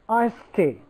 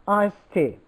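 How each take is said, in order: The two takes are said the same way.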